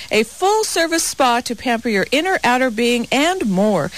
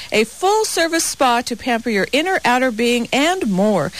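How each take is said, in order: The two takes are said the same way.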